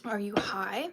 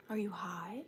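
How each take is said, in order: First: Said in the usual way. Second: Breathy teasing whisper; hushed playful whisper. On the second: Real, not acted. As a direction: lean in and whisper the question.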